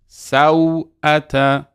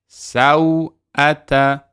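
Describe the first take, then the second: No difference in how they are said.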